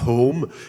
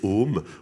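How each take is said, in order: First: The initial h is clearly breathed out. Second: The initial h is left out entirely. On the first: The speaker calls it right. "Ils disent pas home" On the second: The speaker calls it wrong. "ils savent pas prononcer le H aspiré. ... ils disent home"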